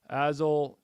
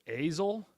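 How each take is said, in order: First: Azel with the A of "jazz"; short A in Azel. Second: Azel starting like "ace", rising as a question; long A in Azel. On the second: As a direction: say Azel as "AY-zul", higher, questioning. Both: Real, not acted. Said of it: "is with a long A sound".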